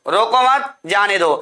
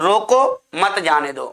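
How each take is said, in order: First: There is a pause right after 'mat'. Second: There is a pause right after 'roko'. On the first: Do not stop him, let him go. "रोको मत भगाओ इसको" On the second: Stop him, do not let him go. "रोको मत जाने दो मतलब रोक लो"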